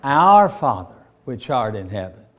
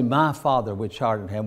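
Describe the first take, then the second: First: "Our" hit loud, then drop; stress on OUR. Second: "My" leaned on as the wrong word; stress on my. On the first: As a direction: land hard on "Our", the right word. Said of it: "What do we say?". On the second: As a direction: set "My Father" apart as the wrong way. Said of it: "We don't say". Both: Shown as a demonstration.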